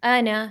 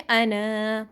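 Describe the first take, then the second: First: "انا" with the last alif left silent; short final vowel. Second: "انا" with a long held final a; stretched final alif. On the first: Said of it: "بس انا پڑھیں گے". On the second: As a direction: draw out the end of "انا" as at a pause. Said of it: "وقف کی صورت میں ہمیں الف کو کھینچنا پڑے گا". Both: Shown as a demonstration.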